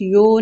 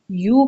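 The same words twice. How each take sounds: First: یو said as "yo" with an o vowel; wrong yo. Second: یو said as "yuu" with pure u; یو with a close u vowel, not o; correct yu. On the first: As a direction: open یو out to a long "yoh". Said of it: "یو نہیں". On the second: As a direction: round یو into a clear "yoo" as in you. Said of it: "یو پڑھا جائے گا". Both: Shown as a demonstration.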